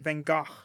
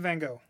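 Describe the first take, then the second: First: Gogh ends with a g-like sound. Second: Gogh ends with no g-like sound. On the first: The speaker calls it right. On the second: The speaker calls it wrong.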